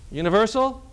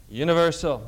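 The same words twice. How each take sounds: First: Universal? asked with a rising tune; questioning tune. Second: Universal. settled with a falling tune; answering tune. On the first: Teacher quizzing the class, Universal? with a rising tune. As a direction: lift the end of Universal? like a real question. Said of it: "for the salvation of all men". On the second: Teacher answering his own question, Universal. with a falling tune. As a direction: drop the end of Universal. as a firm answer. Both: Shown as a demonstration.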